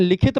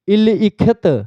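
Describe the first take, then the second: First: The i vowel is said after the l. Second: The i vowel is said before the l. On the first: It is the way the word is actually read. "लेकिन क्या पढ़ते हैं? लिखित पढ़ते हैं।" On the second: It follows the order in which the signs are written. "सबसे पहले पढ़ना कैसे चाहिए इसको? देखिए"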